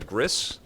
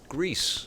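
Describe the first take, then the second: First: The vowel is a short 'i' sound. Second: The vowel is a long 'ee' sound. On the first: The speaker calls it wrong. "I was pronouncing it uh, Gris" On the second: The speaker calls it right. "The game is pronounced Greece"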